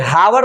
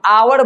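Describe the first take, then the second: First: The word starts with an audible h sound. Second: The word starts with a vowel, no h. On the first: The speaker calls it wrong. "हावर नहीं बोलते हैं" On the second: The speaker calls it right. "हम आवर बोलते हैं"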